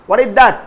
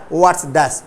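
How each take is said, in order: First: Said in the usual way. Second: "What's" in one syllable, lower pitched; contracted what's. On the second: Shown as a demonstration. Teacher contrasts it with the full form, contracted "What's". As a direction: merge what and is into "What's". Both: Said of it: "इस तरीका से बोलेंगे".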